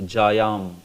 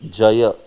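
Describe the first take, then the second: First: The word ends with an added m sound. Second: The word ends on an open a vowel. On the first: The speaker calls it wrong. "This is a common mispronunciation" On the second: The speaker calls it right. "it is Jaya"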